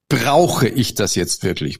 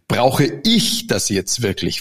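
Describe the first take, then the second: First: The stress is on brauche. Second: The stress is on ich.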